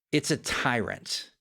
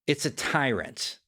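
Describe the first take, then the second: No difference in how they are said.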